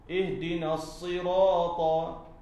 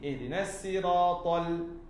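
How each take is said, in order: First: The s in sirat is a heavy emphatic s. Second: The s in sirat is a light plain s. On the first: This is the standard reading in the Quran. "Ada bahasa yang sebut dengan sad" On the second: This is an accepted variant reading. "Ada juga qiraat yang baca dengan sin"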